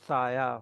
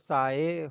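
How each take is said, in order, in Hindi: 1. यह शब्द 'ya' की आवाज़ पर खत्म होता है। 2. यह शब्द 'ay' स्वर की आवाज़ पर खत्म होता है। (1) "अगर हम आ प्रोनाउंस करेंगे तो साया हो जाएगा" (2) "अगर हम हे प्रोनाउंस करेंगे तो साए हो जाएगा"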